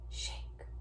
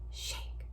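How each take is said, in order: Both takes have the same delivery.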